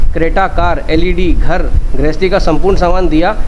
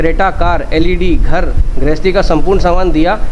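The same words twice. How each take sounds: No difference in how they are said.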